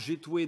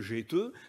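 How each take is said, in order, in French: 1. Le mot se termine par le son oué. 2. Le mot se termine par la voyelle eu. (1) "dans l'amiénois" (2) "dans le vimeux"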